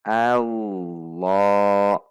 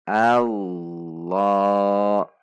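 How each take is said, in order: Both takes have the same delivery.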